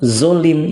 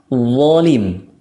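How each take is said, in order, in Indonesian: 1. Awalnya bunyi z yang ditebalkan. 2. Awalnya bunyi th bersuara yang tebal. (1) "itu kayak zai yang ditebalkan" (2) "ini cara bacanya adalah zolim"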